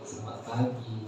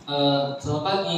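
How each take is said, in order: First: It is said pointedly, remarking on lateness. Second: It is said as a plain, friendly greeting.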